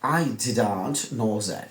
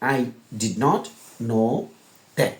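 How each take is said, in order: First: Did and not merge into one contracted word. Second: The words did and not are said separately. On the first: The speaker calls it right. "বিদেশিরা বলবে" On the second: The speaker calls it wrong. "বিদেশিরা কি এভাবে বলবে? না"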